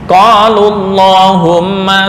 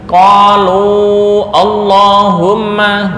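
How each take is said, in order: First: The u before Allahumma is short. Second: The u before Allahumma is held long. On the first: The speaker calls it right. "seolah-olah wawu di sini enggak berfungsi" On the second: The speaker calls it wrong. "enggak boleh dibaca qalu Allahumma"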